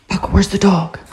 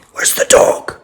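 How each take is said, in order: First: Excited. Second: Breathy teasing whisper; hushed question to the dog. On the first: Teasing dog Paco. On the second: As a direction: hiss it to get him looking. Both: Real, not acted.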